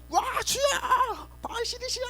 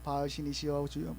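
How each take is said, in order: First: Frantic shouting prayer. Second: Softly imitating the prophets calling on Baal; a hushed, half-hearted plea to 바알; mock prayer, quiet. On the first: Retold or imitated. False prophets yelling at their god, high-pitched frenzied shout. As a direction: scream 바알 신이시여 at the sky in a high pitch. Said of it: "막 소리 지르면서 하고요". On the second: False prophets begin praying to Baal, murmured low. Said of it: "거기서 막 기도하는 거예요".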